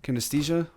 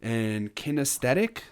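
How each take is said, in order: First: "Kinesthesia" repeated after the correction, ending in -thesia; "Kinesthesia" said the corrected way; corrected pronunciation. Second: Says "Kinesthetic" with a -thetic ending, unsure of it; tentatively says "Kinesthetic" and ends it in -thetic; "Kinesthetic" said as a hesitant guess; unsure pronunciation. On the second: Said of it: "is that how you say that?". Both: Real, not acted.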